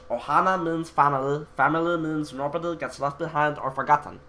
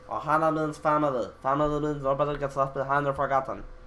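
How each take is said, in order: First: It is spoken with feeling and emotion. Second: It is spoken flatly without any emotion. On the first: The speaker cares about the words. "like the voice of Stitch" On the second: The speaker does not care about the words. "without any emotion"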